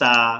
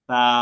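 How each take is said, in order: First: Air hisses out like an s sound. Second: The tongue tip touches the upper teeth, little air. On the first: The speaker calls it wrong. "মানুষ এটাকে এইভাবে পড়ে" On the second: The speaker calls it right. "আমি পড়ছি শুনবেন, জিহ্বা লাগে কিনা দেখেন।"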